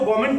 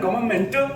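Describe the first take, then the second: First: It is said in the speaker's own accent. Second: It is said in a Malayali accent. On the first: "मैं गवर्नमेंट को गवर्नमेंट बोल दूंगा" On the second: "Malayalam में गवर्नमेंट"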